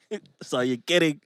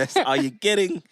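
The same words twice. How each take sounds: First: Deadpan repeat. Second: Playful tease. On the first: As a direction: say it flat, end of discussion. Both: Shown as a demonstration.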